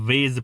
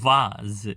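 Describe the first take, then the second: First: The vowel sounds like 'ay'. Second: The vowel sounds like 'ah'. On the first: "ઘણા વેઝ પણ કહેતા હોય છે" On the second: "આપણે કહીએ છીએ આને વાઝ"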